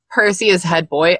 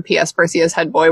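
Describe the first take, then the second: First: Said in the usual way. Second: Flat read, zero feeling in it; deadpan, no emotion. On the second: Shown as a demonstration. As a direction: read it like a bored memo. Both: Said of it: "with, like, absolutely no emotion whatsoever".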